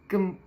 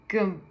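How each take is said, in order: Both takes have the same delivery.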